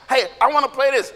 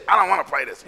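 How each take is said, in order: First: Casual, slightly lifted request; a hint of childlike eagerness; lightly acted keen kid. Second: Lower, grumbled answer; mock-child dismissive no; sulky kid refusal. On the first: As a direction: put the idea forward. One kid wants the game. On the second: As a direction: turn it down.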